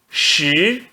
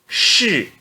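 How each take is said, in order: First: The pitch rises from mid to high. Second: The pitch falls sharply from high. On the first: "No segundo tom" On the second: "E no quarto tom"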